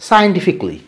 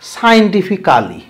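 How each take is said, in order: First: The ending is said as a short 'klee'. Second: The ending is said as a full 'cally'. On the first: The speaker calls it right. "এটাকে তোমাকে উচ্চারণ করতে হবে ইকলি।" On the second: The speaker calls it wrong. "তোমরা এটা কি বলো? ... এরকম কোনো কালি ক্যালি এরকম"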